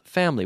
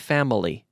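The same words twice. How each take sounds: First: The word is said with two syllables. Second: The word is said with three syllables. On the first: The speaker calls it right. "We say that with two syllables" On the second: The speaker calls it wrong. "We don't say family"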